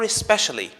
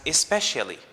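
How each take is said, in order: First: A short schwa follows the sh sound. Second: Extra vowels and syllables are added to the word. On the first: The speaker calls it right. "with a schwa after the sh sound" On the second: The speaker calls it wrong. "by adding more syllables to the word and thus more vowels"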